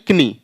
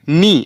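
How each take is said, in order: First: The word begins with a k sound. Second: The word begins with an n sound. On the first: The speaker calls it wrong. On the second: The speaker calls it right.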